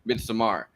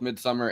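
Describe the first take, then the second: First: The title is said with a Swedish-style vowel. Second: The title is said like the English word midsummer. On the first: "in some interviews I've seen, Midsommar. I refuse to pronounce it that way" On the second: "pronounced both Midsummer"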